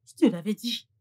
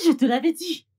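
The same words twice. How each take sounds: First: Said in the usual way. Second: Higher and louder, hammering it home; I told you so, pushed up loud; insistent scolding. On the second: Acted. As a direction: rub it in, raising the voice. Scolding, repeats the phrase.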